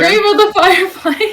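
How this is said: It is said as a confident statement.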